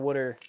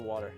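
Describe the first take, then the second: First: The first vowel is rounded, like 'wood'. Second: The first vowel is open, like 'wah'.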